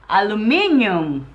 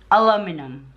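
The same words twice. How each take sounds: First: ALUMINIUM as "a-loo-MIN-yum"; older Filipinos' ALUMINIUM. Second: ALUMINUM as "a-LOM-i-num"; American ALUMINUM. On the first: Retold or imitated. Wife imitates her mom, ALUMINIUM with stressed MIN. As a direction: lengthen MIN and add a "y" in ALUMINIUM. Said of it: "some older people, like my mom, she said". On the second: Shown as a demonstration. Wife shows American form, ALUMINUM ending in "num". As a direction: say ALUMINUM with a short weak ending. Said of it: "you say it al".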